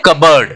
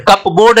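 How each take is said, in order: First: "कबर्ड" as kub-erd, no p sound; short second vowel in "कबर्ड"; correct contracted pronunciation. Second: "कपबोर्ड" as cup + board, p sounded; wrong pronunciation. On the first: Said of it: "क्या बोलते हैं". ("कबर्ड" मिलाकर बोलें, प silent) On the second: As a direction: give "कपबोर्ड" a full "board". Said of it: "कपबोर्ड नहीं बोलते हैं". ("कपबोर्ड" को कप-बोर्ड, गलत ढंग से) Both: Shown as a demonstration.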